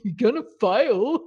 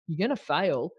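First: It is said in a silly put-on voice. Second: It is said in a normal voice.

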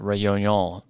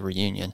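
First: The name is said with a French-style pronunciation. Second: The name is said with a plain English pronunciation. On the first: It sounds fancy and like trying hard. "people who are more fancy than me say it way different than that. It's like Reunion" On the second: It sounds plain and unpretentious. "I just can't compel myself to say that, so I say Reunion"

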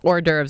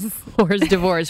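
First: It ends with a sound like 'derves'. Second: It ends with a sound like 'divorce'. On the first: The speaker calls it right. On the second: The speaker calls it wrong.

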